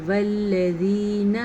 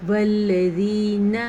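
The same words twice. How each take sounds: First: والذین recited slowly, closed n; clean ending. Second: والذین ending on a plain n, no added na; clean ending. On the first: Teacher repeating والذین correctly. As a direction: keep والذین short at the end. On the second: Teacher warning not to add na. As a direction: stop cleanly on the نون of والذین. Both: Shown as a demonstration. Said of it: "نا نہ کر دینا کہیں".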